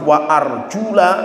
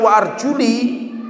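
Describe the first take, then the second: First: The vowel after arjul is an 'a' sound. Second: The vowel after arjul is an 'i' sound. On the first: The feet are to be washed. "harokatnya itu fathah" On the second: The feet are to be wiped. "bacanya dikasrohkan"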